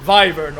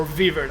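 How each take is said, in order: First: "wyvern" with first vowel as in "five"; "wyvern" opening with v and an eye sound; long-i pronunciation. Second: "wyvern" with first vowel as in "give"; "wyvern" opening with v and a short i; short-i pronunciation. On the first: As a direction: say "wyvern" like "VY-vern". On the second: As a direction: say "wyvern" like "VIV-ern". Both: Shown as a demonstration. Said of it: "the pronunciation of the word".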